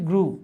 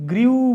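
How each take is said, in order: First: The vowel is a plain 'oo' without glide. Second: The vowel has a y-glide, like 'yoo'. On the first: The speaker calls it right. "এটার উচ্চারণ হচ্ছে গ্রু" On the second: The speaker calls it wrong. "আমরা অনেকে এটাকে গ্রিউ বলি"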